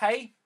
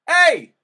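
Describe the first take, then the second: First: It starts with a lot of air. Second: It starts clearly, with little air.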